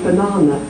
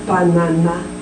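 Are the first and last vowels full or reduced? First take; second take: reduced; full. First: The first and last vowels are weak and reduced. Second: The first and last vowels are full and clear. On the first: The speaker calls it right. "we say banana" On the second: The speaker calls it wrong. "We don't say banana"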